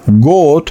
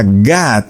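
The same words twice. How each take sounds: First: God said slowly as go, with a Spanish o; Spanish-style God. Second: God said ga, with an open Spanish a. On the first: Pastor showing how a Spanish speaker says God, slow and with an o. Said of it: "yo diría God". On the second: Pastor giving the other Spanish way of saying God, with an a. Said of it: "o diría God". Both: Shown as a demonstration.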